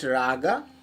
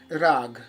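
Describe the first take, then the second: First: The word ends on an extra vowel sound. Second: The word ends on a consonant sound. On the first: "Some people can pronounce it raga" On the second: "it is basically called rag"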